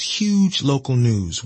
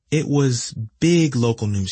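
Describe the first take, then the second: First: Huge drawn out slowly; stress on huge. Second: Said in the usual way. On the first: A narrator's reading. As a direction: lean on huge, slow.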